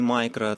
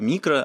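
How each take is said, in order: First: The word is said with an English pronunciation. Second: The word is said with a Russian pronunciation. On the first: The speaker calls it wrong. "а не micro" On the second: The speaker calls it right. "как я говорю микро"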